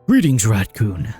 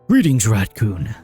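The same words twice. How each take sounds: First: It is said in a put-on man's voice. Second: It is said in a put-on man's voice.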